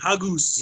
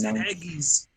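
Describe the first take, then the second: First: The second vowel sounds like 'u'. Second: The second vowel sounds like 'i'. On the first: The speaker calls it wrong. "You're saying it with the U" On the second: The speaker calls it right. "It's haggis"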